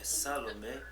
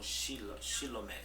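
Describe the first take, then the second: First: The word begins with an s sound. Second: The word begins with an sh sound. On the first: The speaker belongs to the group. The speaker calls it right. "é Salomé" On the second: The speaker is not really one of the group. The speaker calls it wrong. "eles falavam Shilomé"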